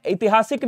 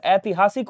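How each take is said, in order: First: ऐतिहासिक starting with short i; wrong first vowel. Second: ऐतिहासिक starting with ai; correct first vowel. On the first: Teacher showing students the error, ऐतिहासिक as "itihasik". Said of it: "नहीं होता है". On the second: Teacher correcting students, ऐतिहासिक as "aitihasik". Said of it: "होता है". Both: Shown as a demonstration.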